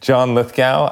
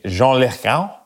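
First: The name is said in a plain English accent. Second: The name is said in a fancy French-style accent.

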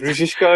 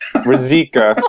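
First: The last part sounds like 'shka'. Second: The last part sounds like a plain 'ka'. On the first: This is how Czech speakers say it. The speaker calls it right. "They say like Rizishka or something" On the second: This is the family's own everyday version. The speaker calls it wrong. "I don't even say it correctly"

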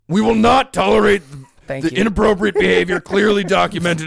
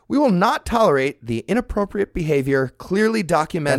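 First: It is read in a put-on imitation voice. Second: It is read in the speaker's own normal voice. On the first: The speaker calls it right. "That's what her" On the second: The speaker calls it wrong. "That's not what she sounds like"

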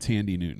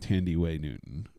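First: The first name is said with two syllables. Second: The first name is said with three syllables. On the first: This is a shortened form that is not her real name. The speaker calls it wrong. "It's not Tandy Newton" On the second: This is her real, full name. The speaker calls it right. "It's Tandy Way Newton"

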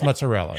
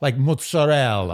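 First: It is said with a plain American pronunciation. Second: It is said with an Italian-style pronunciation. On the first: The speaker is using the ordinary local pronunciation. The speaker calls it right. "You're in America" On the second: The speaker is putting on a foreign pronunciation. The speaker calls it wrong. "like people say like mozzarella"

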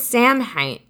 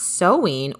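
First: It is said like 'sam-hain', with an m. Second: It is said like 'sow-in', with no m. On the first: "I thought it was Samhain" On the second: "pronounced Sowin"

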